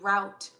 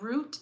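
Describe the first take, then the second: First: The vowel sounds like the one in out. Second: The vowel sounds like the one in boot. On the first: The speaker calls it right. "I should pronounce it differently" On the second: The speaker calls it wrong. "not root"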